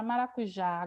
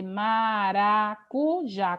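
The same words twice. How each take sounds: First: Said in the usual way. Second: "maracujá" split slowly into ma, ra, cu, já; syllable by syllable. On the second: Shown as a demonstration. Teacher separating maracujá into four syllables, syllable by syllable. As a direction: separate each syllable of "maracujá" with small gaps. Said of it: "se eu for separar a sílaba".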